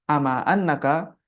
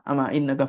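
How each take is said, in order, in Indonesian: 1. Partikel setelah ama dimulai dengan vokal 'a'. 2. Partikel setelah ama dimulai dengan vokal 'i'. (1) "Kalau kita bacanya fathah" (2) "Kalau di kasrah"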